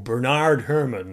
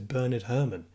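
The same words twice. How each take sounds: First: The name is said the American way. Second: The name is said the British way.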